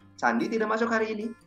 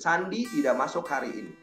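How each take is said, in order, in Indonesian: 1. Diucapkan dengan nada tanya. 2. Diucapkan dengan nada pernyataan biasa.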